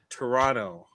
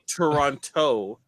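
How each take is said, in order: First: The second T is dropped. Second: The second T is clearly pronounced. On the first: The speaker calls it right. "You don't pronounce the second T" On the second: The speaker calls it wrong. "It's not Toronto, like T O E"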